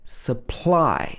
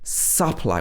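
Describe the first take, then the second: First: The first vowel is reduced to a schwa. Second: The first vowel is a full, unreduced vowel. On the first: The speaker calls it right. "we say supply" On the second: The speaker calls it wrong. "we don't say supply"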